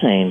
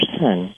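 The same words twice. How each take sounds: First: Seine is said with an American pronunciation. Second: Seine is said with a French pronunciation. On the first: The speaker calls it wrong. "Americans call it the River Seine" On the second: The speaker calls it right. "it's actually pronounced the River Seine"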